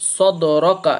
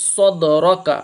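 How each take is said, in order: Both takes have the same delivery.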